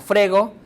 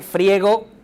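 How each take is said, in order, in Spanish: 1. La vocal tónica es una e simple. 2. La vocal tónica es el diptongo ie. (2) "Se dice"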